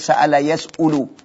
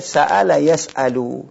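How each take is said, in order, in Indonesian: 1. Vokal setelah hamzah adalah u. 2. Vokal setelah hamzah adalah a. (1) "Enggak bisa dibaca" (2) "Ini mesti dibaca"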